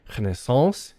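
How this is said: It is said with a French pronunciation. "The French say Renaissance in the original French"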